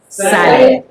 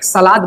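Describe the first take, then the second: First: The word is said with an English accent. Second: The word is said with a Bhojpuri accent. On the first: The speaker calls it right. "if we talk in English accent, we use what?" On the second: The speaker calls it wrong. "in Bhojpuri we always speak salad"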